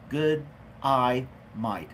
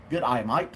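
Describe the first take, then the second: First: Put-on Aussie accent broken up word by word; Australian accent. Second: Put-on Aussie accent run together as one phrase; Australian accent. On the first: Streamer practising a greeting for an Australian viewer, word-by-word Australian accent. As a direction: sound out each word in a mock Australian accent. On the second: Streamer greeting a viewer in Australia, joined-up mock Australian accent. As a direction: toss off a playful Australian greeting. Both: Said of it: "That's my Australian accent, uh, impersonation".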